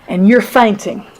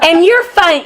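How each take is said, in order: First: It is said in a gentle, sympathetic tone. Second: It is said in a mocking, taunting tone. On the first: The speaker is offering caring advice. "Listen to what he said again" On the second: The speaker is gloating over the listener's trouble. "if he said it like that, then I'm sure that Job thought, wow, go back home"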